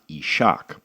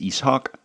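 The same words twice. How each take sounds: First: The s and h merge into 'sh'. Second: The s and h are sounded separately. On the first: The speaker calls it wrong. "not Ishak" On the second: The speaker calls it right. "so it is Ishak, No S H sound"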